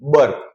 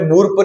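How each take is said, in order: First: The vowel is a central 'uh' sound. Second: The vowel is a rounded 'oo' sound. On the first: The speaker calls it right. "इसको बोलेंगे बर्प" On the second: The speaker calls it wrong. "इसको मैंने बुर्प नहीं बोला है"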